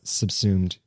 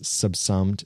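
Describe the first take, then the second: First: The second syllable has a long vowel sound. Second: The second syllable sounds like the word summed. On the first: The speaker calls it right. "I know that I mispronounced subsumed" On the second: The speaker calls it wrong. "recently as subsummed"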